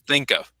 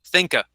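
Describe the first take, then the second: First: The words are linked, ending in a v sound. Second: The words are linked, with the v sound dropped. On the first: "she linked the two sounds" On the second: "sometimes people don't pronounce even that sound either"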